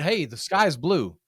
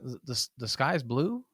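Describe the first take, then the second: First: It is said confidently, as a firm statement. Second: It is said hesitantly, with stumbling repeats.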